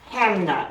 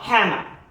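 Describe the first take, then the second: First: The name ends with a clear 'na' sound. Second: The name ends with an 'er' sound. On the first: The speaker calls it right. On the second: The speaker calls it wrong. "not Hammer"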